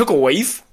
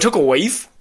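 First: It is said in a put-on surfer-dude voice. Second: The same.

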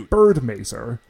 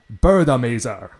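First: It is said with a plain English accent. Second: It is said with a Japanese accent. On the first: "they don't say bird mazer" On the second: "They say, like, bird mazer"

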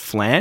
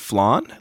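First: The vowel rhymes with 'man'. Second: The vowel does not rhyme with 'man'. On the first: This pronunciation makes the rhyme work for the joke. "because it rhymes with man" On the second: This is the singer's own preferred pronunciation. "like that's how he would say it"

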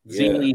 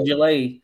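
First: The given name starts with a Z sound. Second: The given name starts with a J sound. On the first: The speaker calls it wrong. "I've been calling him Zili Zhang" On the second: The speaker calls it right. "No, it's a J"

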